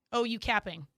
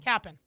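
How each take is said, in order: First: "capping" said flat and plain, as she first did; casual "capping" said the wrong way. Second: "Capping" said with a bit more weight, the way they correct her; right way. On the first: Retold or imitated. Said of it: "No, you can't, like, say it like that". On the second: Shown as a demonstration. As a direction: demo "Capping" the proper way. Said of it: "You gotta say capping".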